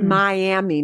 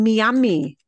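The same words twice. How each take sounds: First: It is pronounced with English vowels and rhythm. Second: It is pronounced with Spanish vowels and rhythm. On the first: "not Miami" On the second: "You will hear people saying Miami"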